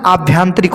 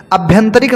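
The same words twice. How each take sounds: First: आभ्यंतरिक with long aa, "aabhyantrik"; corrected आभ्यंतरिक. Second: आभ्यंतरिक with short vowels, "abhyantarik"; mispronounced आभ्यंतरिक. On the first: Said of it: "होता है". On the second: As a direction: open आभ्यंतरिक on a short a, pitched up. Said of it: "नहीं होता है". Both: Shown as a demonstration.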